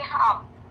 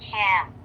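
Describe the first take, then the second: First: The vowel is an open 'ah'-like sound. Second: The vowel is a flat 'a' as in 'cat'. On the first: The listeners are Filipino friends. The speaker calls it wrong. "if your audience are Filipinos, it's okay sometimes to say hum" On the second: The speaker is acting as a role model. The speaker calls it right. "say ham instead of hum, because that's the more accurate pronunciation"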